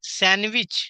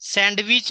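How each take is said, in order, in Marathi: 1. शब्दात d आवाज उच्चारला जात नाही. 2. शब्दात d आवाज उच्चारला जातो. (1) "डी हे लेटर सायलेंट लेटर आहे" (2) "नाही"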